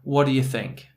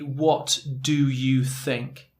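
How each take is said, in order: First: The words run together like one word. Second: Each word is said separately and fully.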